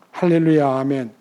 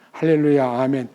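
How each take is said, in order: No difference in how they are said.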